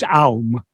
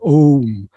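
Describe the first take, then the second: First: The vowel glides from ah to oo. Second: The vowel is one steady o sound. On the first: The speaker calls it wrong. "it shouldn't be pronounced as Aum" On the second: The speaker calls it right. "It is Om"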